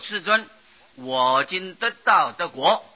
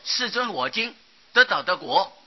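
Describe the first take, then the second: First: The main pause comes right after 世尊. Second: It splits into two four-character groups. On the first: 世尊 stands alone as a heartfelt address. The speaker calls it right. "这里应当是把它念作世尊我今得到的果啊" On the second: The meaning does not come across. The speaker calls it wrong. "不要念作世尊我今得到的果啊，这样子意思表达不出来"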